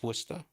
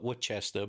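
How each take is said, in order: First: It is pronounced the local Massachusetts way. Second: It is pronounced the way an outsider says it. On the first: This is how the locals say it. "it's Worcester to us" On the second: This is how people elsewhere say it. "You'd call it Worcester"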